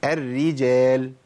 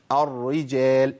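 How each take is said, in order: First: الرجال drawn out with both r's thin; correct light r. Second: الرجال drawn out with a thick first r; wrong heavy r. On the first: Teacher stating what to say, slow light r in الرجال. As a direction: recite الرجال slowly as "er-rijal", light r. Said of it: "أقول". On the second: Teacher warning what not to say, heavy first r in الرجال. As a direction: recite الرجال slowly as "ar-rijal", first r heavy. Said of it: "ما أقولش". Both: Shown as a demonstration.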